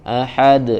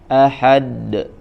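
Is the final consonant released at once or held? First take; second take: released; held. First: The final consonant is released at once. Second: The final consonant is held, as if doubled. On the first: The speaker calls it right. "langsung ahad" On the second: The speaker calls it wrong. "jangan ahad"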